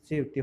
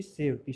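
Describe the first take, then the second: First: सेवते said with a final ए as the right form; सेवते pronounced with a final ते; correct form. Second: सेवती said with a long final ई as the wrong form; सेवती pronounced with a final ती. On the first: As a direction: read सेवते, ending on a clear ए. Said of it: "सेवते होता है". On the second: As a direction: read सेवती, ending on a long ई. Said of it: "सेवती नहीं होता". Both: Shown as a demonstration.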